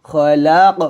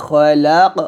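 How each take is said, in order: No difference in how they are said.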